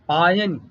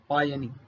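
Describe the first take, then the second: First: The final vowel is short. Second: The final vowel is long. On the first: The speaker calls it right. "पायन ना कि पायनी" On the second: The speaker calls it wrong. "ह्रस्व ई ... उसका दीर्घ कर देते हैं"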